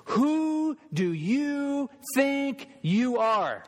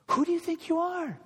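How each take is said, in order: First: Very high, slow, drawn-out sneer; sarcastic religious leader, much higher and slower; accusing Pharisee. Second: Even higher, quicker sarcastic echo; sneering repeat. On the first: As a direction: jab a bony finger and sneer each word. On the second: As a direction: throw it back as a sneer. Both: Retold or imitated. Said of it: "bony fingers in Jesus' face, they say this".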